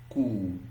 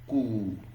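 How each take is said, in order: No difference in how they are said.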